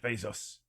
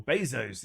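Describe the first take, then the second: First: "Bezos" said BAY-zoss, the second part short like "boss". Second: "Bezos" said BAY-zohs, the second part long like "rose". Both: Shown as a demonstration. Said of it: "Is it Bezos or Bezos?".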